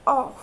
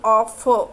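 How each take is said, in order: First: The final f sound is soft and airy. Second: The final f sound is full and strong. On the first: The speaker calls it right. "ऑफ हा योग्य sound आहे" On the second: The speaker calls it wrong. "आपण ऑफ असं actually म्हणत नाही, म्हणजे आपण पूर्ण फ नाही आपण वापरत"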